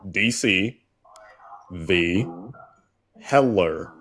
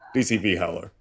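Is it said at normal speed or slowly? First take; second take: slowly; normal. First: It is said slowly and deliberately. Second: It is said at a normal speed.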